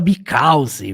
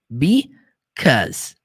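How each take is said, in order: First: The word is said with extra syllables. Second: The word is said with two syllables. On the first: The speaker calls it wrong. "Muita gente fala because" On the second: The speaker calls it right. "é duas sílabas só"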